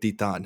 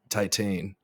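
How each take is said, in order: First: The word has a French pronunciation. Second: The word has an American English pronunciation. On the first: "I'm trying to add my best French flourish to it" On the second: "full just obnoxious American Titan"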